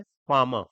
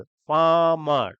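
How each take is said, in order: First: Said in the usual way. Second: "farmer" stretched out as two slow beats; split into two syllables. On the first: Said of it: "उस बोलते time उसके टुकड़े होते हैं". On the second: Shown as a demonstration. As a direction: draw out each half of "farmer" separately. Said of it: "दो syllable".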